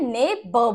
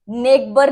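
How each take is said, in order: First: ने ब as two syllables without g; silent gh. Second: नेबर with a hard g, "neg-bur"; wrong pronunciation. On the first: Teacher breaking down the correct word, ने ब with silent gh. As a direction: say ने ब with no g sound. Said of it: "ने ब बोलते हैं इसे". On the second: Teacher showing what not to say, नेबर with g sounded. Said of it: "नेबर नहीं बोलते". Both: Shown as a demonstration.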